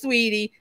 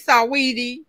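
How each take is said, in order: First: The name is said with two syllables. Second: The name is said with three syllables. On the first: This is how the name is actually said. The speaker calls it right. "but it's Sweetie" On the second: This is how the written name looks. The speaker calls it wrong. "I want to say Saweetie"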